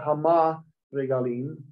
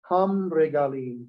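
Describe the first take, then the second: First: An 'a' vowel is heard after 'ham'. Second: The vowel after 'ham' is dropped. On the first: The speaker calls it wrong. "it's not Hama Regalim" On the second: The speaker calls it right. "we lose the A part"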